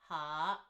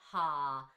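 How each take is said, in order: First: The tone rises. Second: The tone does not rise. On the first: It is used as a verb classifier. "is like it's a rising tone" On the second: It is used in a directional sense. "that's the sixth tone"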